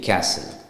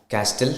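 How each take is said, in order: First: The T in the word is silent. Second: The T in the word is pronounced. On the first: The speaker calls it right. "when you pronounce it, it's C A S L E" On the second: The speaker calls it wrong. "Castle നമ്മൾ പറയത്തില്ല"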